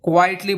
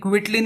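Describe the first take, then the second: First: The first syllable sounds like 'kwai'. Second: The first syllable sounds like 'kwit'. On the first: The speaker calls it right. "इसे क्वाइटली बोलेंगे" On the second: The speaker calls it wrong. "इसे क्विटली नहीं बोलेंगे"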